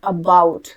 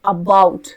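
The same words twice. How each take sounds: The two takes are said the same way.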